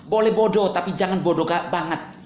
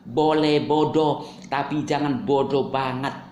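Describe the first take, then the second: First: Said in the usual way. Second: Drawn out slowly, word by word; slow deliberate repeat. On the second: Shown as a demonstration. Vlogger repeats his line to haters, slow and deliberate. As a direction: spell it out slowly for the slow ones.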